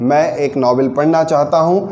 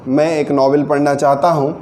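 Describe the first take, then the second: The two takes are said the same way.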